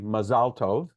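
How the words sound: It is said with the Sephardic pronunciation.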